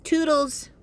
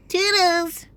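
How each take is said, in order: First: High sing-song toodles, said teasingly; a cutesy high toodles to sign off the video; playful goodbye. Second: Toodles pushed even higher and louder; a squealed, higher Toodles as the final sign-off; louder playful goodbye. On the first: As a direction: chirp toodles up high like a cartoon farewell. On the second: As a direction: belt Toodles out in a squeaky high call. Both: Pretend.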